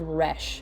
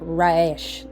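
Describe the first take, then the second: First: The vowel is a short 'eh' sound. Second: The vowel is a long 'ay' sound. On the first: "is called Resh" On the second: "some people would pronounce it more like like Raish"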